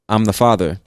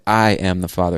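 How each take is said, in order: First: 'I am' is contracted into one syllable. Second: 'I' and 'am' are said separately, emphatically. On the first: It simply states the relationship. "That's perfectly fine, makes total sense" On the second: The speaker insists forcefully on the fact. "I didn't use a contraction there... because I'm putting emphasis"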